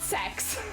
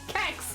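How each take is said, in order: First: The name begins with an s sound. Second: The name begins with a k sound. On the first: This is the pronunciation the store's owner says is correct. The speaker calls it wrong. "It's not sex" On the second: This is the pronunciation that avoids sounding like sex. The speaker calls it right. "I refuse. Kex"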